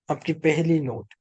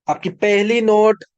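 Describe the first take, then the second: First: Said in the usual way. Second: Higher, louder insistence on "आपकी पहली note"; emphatic repeat. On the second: Real, not acted. Preacher telling listeners which note to check, loud and emphatic.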